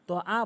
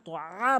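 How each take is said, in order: First: The middle consonant is a plain glottal stop. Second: The middle consonant is a tight throaty ain. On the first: The speaker calls it wrong. "তো আ তো আ বলা যাবে না" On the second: The speaker calls it right. "তো আ বলতে হবে"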